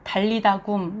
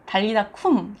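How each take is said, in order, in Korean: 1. 마지막 단어는 부드러운 g 소리로 시작합니다. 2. 마지막 단어는 유기음 k 소리로 시작합니다. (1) "그래서 달리다 굼 이러죠" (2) "히브리어는 쿰입니다"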